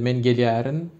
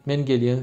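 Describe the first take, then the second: First: The verb ending is said in full, 'gelyerin'. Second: The verb ending is shortened to 'gelyen'. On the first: This is the literary standard form. "Ama edebi dilde" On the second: This is the speaker's own dialect. "Benim ağzım öyle kısa"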